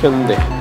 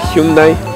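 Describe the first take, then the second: First: The name is pronounced with Korean sounds. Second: The name is pronounced with Spanish sounds. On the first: The speaker calls it right. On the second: The speaker calls it wrong.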